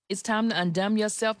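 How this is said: It is said in a special put-on voice.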